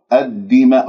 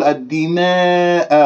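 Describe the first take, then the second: First: الدماء with open flat long a; correct plain alif. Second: الدماء with the final a tilted toward e; wrong imala demo. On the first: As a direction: model الدماء without tilting. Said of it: "ولا تقل الدماء". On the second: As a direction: show the mistaken imala on الدماء. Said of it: "خطأ، هذه إمالة". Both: Shown as a demonstration.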